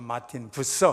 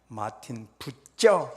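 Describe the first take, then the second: First: The surname has a soft s sound. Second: The surname has a tense ts sound. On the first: "미국식 발음으로" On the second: "독일 분이니까 마틴 부쩌 이렇게 발음해야 돼요"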